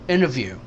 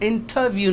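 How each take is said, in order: First: The t after the n is dropped. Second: The t after the n is clearly pronounced. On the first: The speaker calls it right. "यानी ये टी भी एन हो गया" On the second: The speaker calls it wrong. "इंटरव्यू नहीं है"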